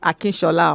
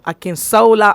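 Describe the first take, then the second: First: The name has a Yoruba sh sound. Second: The name has an anglicized plain s sound. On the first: This is the name as it really is. "It's Akinshola" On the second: The speaker is acting as if he has lived abroad. "when my husband wants to be very janded, then he'll say Akinsola. So let me pronounce it the way he will"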